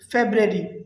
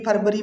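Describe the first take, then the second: First: The word begins with a 'feb' sound. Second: The word begins with a 'far' sound. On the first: The speaker calls it right. "हम इसे बोलेंगे" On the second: The speaker calls it wrong. "वो कहते हैं ... this is wrong"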